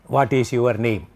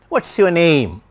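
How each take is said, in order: First: Every word gets equal stress. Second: Only what and name are stressed. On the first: "typical Indian way of asking a question. Because we stress each and every word" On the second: "Stress timed language. What, of course, is stressed. Your is not stressed. Name is stressed"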